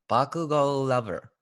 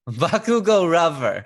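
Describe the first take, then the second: First: The second word starts with a clear L sound. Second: The second word starts with an R sound.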